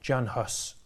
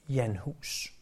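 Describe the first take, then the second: First: The name is said with an English pronunciation. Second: The name is said with a Czech pronunciation. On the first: "som man siger det på engelsk" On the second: "Jan Hus er den nok mest korrekte udtale, eftersom det er sådan, man stadig udtaler hans navn, der hvor han kom fra"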